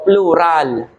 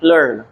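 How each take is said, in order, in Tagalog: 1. Binibigkas ang patinig sa huling pantig. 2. Tahimik ang patinig sa huling pantig. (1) "Pero pag binasa mo" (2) "it pronounced as silent A"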